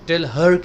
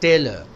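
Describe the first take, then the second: First: The two words are said fully and separately. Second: The two words run together as one word. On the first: The speaker calls it wrong. "टेल हर कहने की जरूरत नहीं है" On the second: The speaker calls it right.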